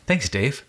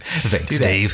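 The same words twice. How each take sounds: First: It is said in a normal speaking voice. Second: It is said in a put-on radio voice.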